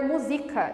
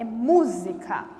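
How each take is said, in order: First: The stress is on the second syllable. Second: The stress is on the first syllable. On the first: The speaker calls it wrong. "se não tiver acento, eu vou ler música" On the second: The speaker calls it right. "O mu é tônico"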